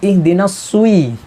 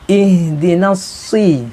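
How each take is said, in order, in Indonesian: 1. Vokal setelah s dibulatkan dengan w. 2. Vokal setelah s adalah i polos. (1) "bukan ihdinas sui. Takut takut bersambung dengan waw" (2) "Jadi harus dibaca ihdinas si"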